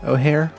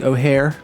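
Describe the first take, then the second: First: The name is said with an h sound. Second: The same.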